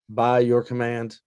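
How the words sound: It is said as a Cylon impersonation.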